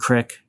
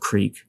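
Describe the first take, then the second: First: The vowel is short, sounding like 'crick'. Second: The vowel is long, sounding like 'creek'. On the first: "and crick instead of creek" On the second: "instead of creek"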